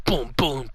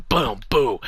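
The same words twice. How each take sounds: First: Whispered boom boom; whispered punch sounds. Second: Voiced playful boom boom; mock punch sounds. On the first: Pretend. Mock punching sound effects. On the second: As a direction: punch noises out loud.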